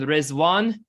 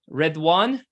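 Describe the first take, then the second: First: The middle consonant is a z sound. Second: The middle consonant is a d sound. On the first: This is the Persian form. "Rizwan is the pronunciation of the Arabic and Persian" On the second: This is the Arabic form. "Redwan is the Arabic"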